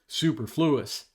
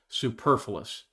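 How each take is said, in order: First: It is said in a rural Missouri pronunciation. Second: It is said in a standard pronunciation.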